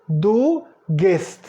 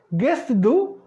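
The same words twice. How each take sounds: First: "Du gehst" stated, falling on gehst; statement tune. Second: "Gehst du" higher, rising on du; question tune. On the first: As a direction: state "Du gehst" with a closing fall. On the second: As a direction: ask "Gehst du" with lifted pitch. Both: Shown as a demonstration. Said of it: "Pra interrogar".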